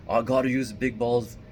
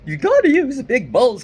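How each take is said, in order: First: Said in the usual way. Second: Much higher and much louder hammed-up macho guy; big balls guy voice. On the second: Shown as a demonstration. Vlogger demos the macho voice his friend disliked, loud and high. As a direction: blast it out like a pumped-up tough guy. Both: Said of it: "kind of voice".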